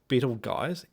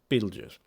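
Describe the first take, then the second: First: The name is said with an imitated, odd pronunciation. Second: The name is said with the usual pronunciation. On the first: The speaker calls it wrong. "he keeps on calling this star Betelgeuse" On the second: The speaker calls it right. "Pronounce it right"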